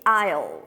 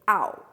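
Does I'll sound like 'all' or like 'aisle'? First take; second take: aisle; all. First: It is said with a full 'eye' vowel. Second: It is reduced to sound like 'all'. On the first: The speaker calls it wrong. "Não vai ser I'll" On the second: The speaker calls it right. "vai ser I'll. All"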